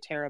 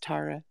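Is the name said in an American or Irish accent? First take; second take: American; Irish. First: The name is said with an American accent. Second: The name is said with an Irish accent.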